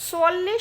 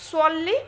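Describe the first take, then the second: The two takes are said the same way.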